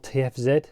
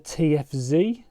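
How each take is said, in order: First: The Z is said the British way, zed. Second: The Z is said the American way, zee.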